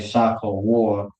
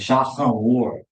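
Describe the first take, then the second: First: The middle consonant is a plain k sound. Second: The middle consonant is a throaty h sound. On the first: This is the easier slang pronunciation. "we would say Shaka War for anybody who don't really just got the means" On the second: This is the proper pronunciation. "or really it's Shakawar"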